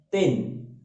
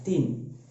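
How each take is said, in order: First: The vowel drifts toward an e sound. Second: The vowel is a clear i sound. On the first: The speaker calls it wrong. "cenderung miring, cenderung e antara a dan e" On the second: The speaker calls it right. "maka bacanya adalah tin"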